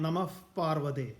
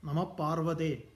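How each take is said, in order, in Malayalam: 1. 'namah'-ന്റെ അവസാനം ഫ-പോലെയുള്ള ശബ്ദത്തിൽ ചേരുന്നു. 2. 'namah'-ന്റെ അവസാനത്തിൽ ഫ-പോലെയുള്ള ശബ്ദമില്ല. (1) "സംസ്കൃതത്തിൽ അത് ശരിയായ ഉച്ചാരണം വരുമ്പോൾ എങ്ങനെയാണ്?" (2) "എന്നല്ല"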